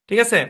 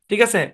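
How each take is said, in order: Both takes have the same delivery.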